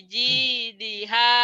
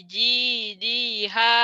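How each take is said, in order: Both takes have the same delivery.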